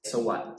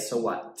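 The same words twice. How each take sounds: The two takes are said the same way.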